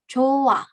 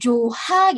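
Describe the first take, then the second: First: The h sound is weak and blends into the vowel. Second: A clear h sound is heard between vowels. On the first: The speaker calls it right. "tapi dia lemah lemah gitu" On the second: The speaker calls it wrong. "bukan dibaca jadi joha gitu ya"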